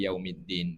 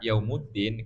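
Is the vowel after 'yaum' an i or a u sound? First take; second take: i sound; u sound. First: The vowel after yaum is an i sound. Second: The vowel after yaum is a u sound. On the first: It follows the wording of the verse. "Dibaca yaumiddin karena baca ayat maliki yaumiddin" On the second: It is the subject of a nominal sentence. "Dibaca yaumuddin kata santri itu karena jadi mubtada"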